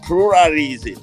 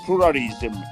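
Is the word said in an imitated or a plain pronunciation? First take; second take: imitated; plain. First: It is said imitating another person's pronunciation. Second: It is said in the speaker's ordinary pronunciation.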